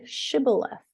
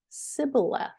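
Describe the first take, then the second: First: The word begins with an 'sh' sound. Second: The word begins with an 's' sound. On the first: The speaker is from Gilead. The speaker calls it right. "Say the word Shibboleth" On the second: The speaker is from Ephraim. The speaker calls it wrong. "They pronounced the word Sibboleth"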